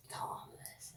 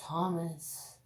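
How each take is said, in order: First: "Thomas" breathed in a whisper. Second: Said in the usual way. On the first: Real, not acted. Repeated name whispered.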